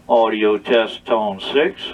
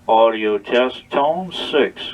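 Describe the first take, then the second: The two takes are said the same way.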